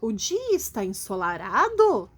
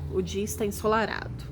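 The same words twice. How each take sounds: First: It is said as a rising question. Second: It is said as a flat statement.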